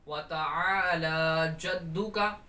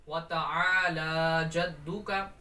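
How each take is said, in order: First: The vowels in ta'ala are stretched long. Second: The same.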